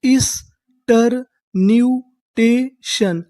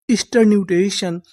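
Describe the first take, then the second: First: ईस्टरन्यूटेशन stretched out, each syllable drawn slowly. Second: Said in the usual way. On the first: Shown as a demonstration. Teacher sounding out the new word for the class, very slow. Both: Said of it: "तो हमारी पूरी meaning क्या बनी?".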